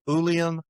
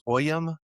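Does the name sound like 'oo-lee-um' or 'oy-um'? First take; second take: oo-lee-um; oy-um. First: The name is said with an 'oo-lee' start. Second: The name is said with an 'oy' start. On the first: This is the Old German and Irish Gaelic form. "the Old German and the Irish Gaelic pronunciation is" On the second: This is the Scots form. "the Scots uh, pronunciation is"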